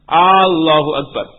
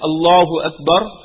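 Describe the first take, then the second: First: The opening vowel of Allahu is drawn out. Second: The opening vowel of Allahu is short. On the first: It asks whether God is the greatest. The speaker calls it wrong. "Person pulled it a little more" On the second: It states that God is the greatest. The speaker calls it right. "instead of saying Allahu Akbar"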